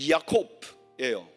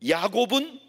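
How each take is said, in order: First: The middle consonant sounds like a hard k. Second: The middle consonant sounds like a soft g.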